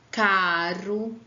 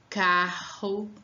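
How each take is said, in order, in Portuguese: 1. O R é um toque fraco e leve. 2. O R é um som forte e áspero. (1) "olha como fica diferente" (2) "Para dar um som forte"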